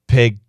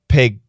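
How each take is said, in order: First: The final consonant is cut off, unreleased. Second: The same.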